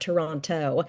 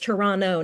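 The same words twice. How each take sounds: First: Toronto is said the way outsiders say it. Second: Toronto is said the way locals say it. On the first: The speaker calls it wrong. "not Toronto" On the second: The speaker calls it right. "actually it's Toronto"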